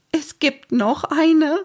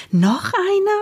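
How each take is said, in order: First: High, slow, near-tearful question; close to tears. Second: High, surprised question. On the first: Mama hears of another surprise, close to tears. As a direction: draw it out high as if about to cry. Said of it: "klang, als würde sie gleich weinen". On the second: Mama questions Omsel about another surprise, astonished. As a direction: shoot the pitch far up in disbelief. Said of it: "Mama sah Omsel fragend an". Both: A narrator's reading.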